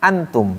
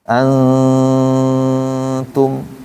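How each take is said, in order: First: The n is pronounced clearly without holding. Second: The n is nasalized and held two beats. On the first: "diidharkan kan antum jadi idhar" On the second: "kalau pakai tajwid kan ditahan tuh dua rakaat"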